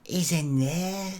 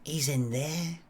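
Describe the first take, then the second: First: Slow, higher Blackpool woman's voice; Blackpool accent. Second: Soft, hushed Blackpool woman's voice; Blackpool accent. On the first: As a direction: draw it out in a put-on Blackpool accent. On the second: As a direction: say it quietly in a put-on Blackpool accent. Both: Acted. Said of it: "is that a Blackpool accent you've got".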